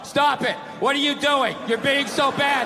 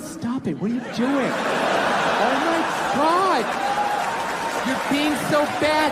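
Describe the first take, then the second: First: It is read out in a flat tone. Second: It is said in a playful, flirty tone.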